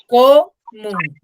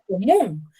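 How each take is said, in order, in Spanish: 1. El acento está en la primera sílaba. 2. El acento está en la segunda sílaba. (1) "yo no digo común" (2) "yo digo común"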